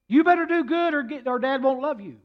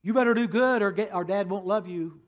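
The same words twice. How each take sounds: First: Big brother's stern repeated warning; emphatic warning. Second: Said in the usual way. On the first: Retold or imitated. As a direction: repeat the warning louder and higher. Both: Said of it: "The one son said to the younger son".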